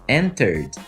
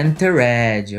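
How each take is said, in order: First: The ending is just a D sound. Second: The ending is an extra syllable with a vowel. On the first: The speaker calls it right. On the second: The speaker calls it wrong.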